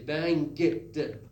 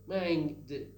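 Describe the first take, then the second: First: Bang ends with an audible hard g. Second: Bang ends in ng with no g released. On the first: The speaker calls it wrong. "You don't say bang, get the. No get sound" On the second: The speaker calls it right. "Bang, the, bang, the"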